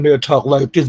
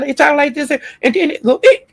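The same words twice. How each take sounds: First: Said in the usual way. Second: Mocking high, squeaky teenage voice. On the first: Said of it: "sometimes they'll talk like this". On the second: Mocking a man's unchanged voice, squeaky. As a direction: jump way up into a cracking boyish squeak. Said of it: "your voice be squeaking".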